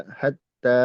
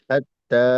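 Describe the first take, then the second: No difference in how they are said.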